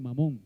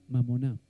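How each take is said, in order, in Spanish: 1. La palabra termina con la sílaba 'mon'. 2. La palabra termina con una sílaba 'na' añadida. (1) "La gente lo, lo lee y dice mamón" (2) "en realidad se pronuncia mamoná"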